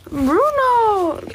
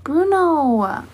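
First: Calling the dog, much higher and insistent. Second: Calling the dog's name, falling; calling a pet. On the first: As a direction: call his name up high, sing-song. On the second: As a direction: call him over gently. Calling the dog. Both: Real, not acted.

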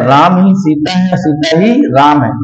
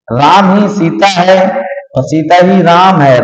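First: Ram ही सीता है chanted in a light rhyming lilt; sing-song chant. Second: Slow, leaning hard on each ही in Ram ही सीता है; stress on ही. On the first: Teacher turning the mnemonic into a chant for students, light sing-song. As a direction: chant it back like a rhyme to remember. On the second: Teacher drilling the R equals S mnemonic into students, slow with ही stressed. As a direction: spell it out slowly, punching ही both times. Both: Shown as a demonstration. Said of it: "आर ही S है और S ही आर है".

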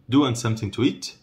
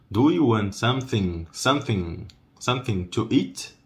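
First: Quick run-together question; brisk natural-speed question; fast, flattened. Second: Measured, chunked teaching question. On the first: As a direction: squash the phrase into one run. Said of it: "quando eu falo rápido, dá uma achatada". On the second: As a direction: question broken into careful pieces. Teacher breaks question into parts. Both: Shown as a demonstration.

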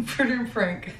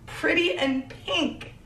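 First: "pretty in pink" stumbled through on a laugh, the words running together; botched tongue twister, giggling; tongue-tied phrase. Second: "Pretty in pink" said slowly, higher, each word placed crisply; finally getting the phrase right, slow and precise; careful proper try. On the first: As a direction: trip over "pretty in pink" and laugh at yourself. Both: Shown as a demonstration. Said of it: "I can't even say it right".

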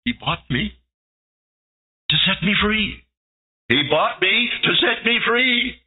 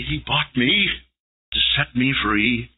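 First: Rising higher through tears; overwhelmed, climbing higher; sobbing joy. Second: Reverent. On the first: Acted. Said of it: "started to sob". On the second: Shown as a demonstration. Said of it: "kiss his nail-pierced feet and say".

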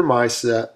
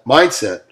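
First: Said in the usual way. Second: A sudden burst of volume on the word MINDSET; loud on MINDSET. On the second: Real, not acted. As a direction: punch out MINDSET louder. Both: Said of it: "Sorry I got loud on mindset".

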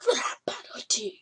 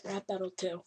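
First: Breathy whisper, no voice. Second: Said in the usual way. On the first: Shown as a demonstration. Gamer whispering the level name to viewers. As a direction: whisper the title like a secret.

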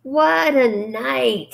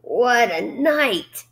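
First: Slow hoarse repeat, higher. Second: Slow hoarse drawl. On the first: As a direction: drag it out hoarsely. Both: A narrator's reading. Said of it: "repeated hoarsely".

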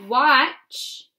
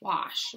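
First: "Watch" with a tch ending; "Watch" with a tch sound; wrong word watch. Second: "Wash" ending in soft sh; "Wash" with an sh sound; right word wash. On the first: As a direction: say "Watch" with a hard tch at the end. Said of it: "Wrong H, brother". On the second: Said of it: "Watch your hands or wash your hands". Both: Shown as a demonstration.

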